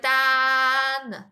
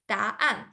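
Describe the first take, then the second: First: The vowels merge into one single syllable. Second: The vowels are split into two separate syllables. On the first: The speaker calls it wrong. "Otherwise, you just like two vowels connected together. It sounds like a dan" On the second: The speaker calls it right. "you separate from da and an so that you know it's a double syllable"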